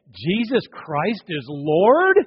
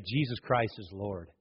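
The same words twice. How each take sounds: First: Slow, rising Jesus Christ is Lord?; doubtful question. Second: Soft, lower firm Jesus Christ is Lord; sincere confession. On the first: Preacher mocking a reluctant confession, slow and doubtful. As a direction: drag it out unsure, ending up. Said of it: "some that will say". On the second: Preacher showing the believer's confession, soft and sincere. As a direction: say it quietly with conviction. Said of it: "others say". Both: Shown as a demonstration.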